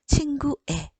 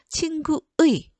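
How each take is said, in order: First: The final syllable has the vowel 'e'. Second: The final syllable has the diphthong 'eui'. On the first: "허용되는 거 친구의 이것도 허용돼요" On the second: "이게 원칙이지만"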